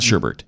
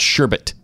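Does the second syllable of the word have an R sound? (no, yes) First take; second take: yes; no. First: The second syllable has an extra R sound. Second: The second syllable has no R sound. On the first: The speaker calls it wrong. "It's not Sherbert" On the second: The speaker calls it right. "There's only one R"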